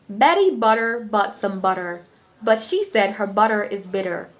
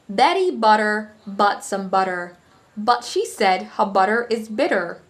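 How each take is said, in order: First: It is spoken in an American accent. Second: The same.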